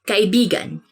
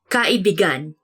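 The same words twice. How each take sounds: First: The word is said in its usual, plain way. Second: The word is said with a twisted, altered stress. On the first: It means a friend. The speaker calls it right. "you have to say it like this" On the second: It means a lover. The speaker calls it wrong. "when you twist it a bit uh, and say it like this"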